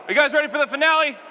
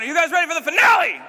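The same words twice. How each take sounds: First: Hype call. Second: Louder, higher crowd call, really pump them up; bigger hype shout. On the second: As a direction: hit it again harder to pump the crowd. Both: Shown as a demonstration. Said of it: "Let's try that again".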